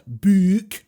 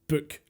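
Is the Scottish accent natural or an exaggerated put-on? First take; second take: exaggerated; natural. First: It is said in an exaggerated fake Scottish accent. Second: It is said in a natural Scottish accent. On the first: This is how an outsider imitates it. The speaker calls it wrong. "not book" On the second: This is how locals actually say it. The speaker calls it right. "one, book"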